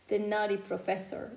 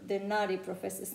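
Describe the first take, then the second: No difference in how they are said.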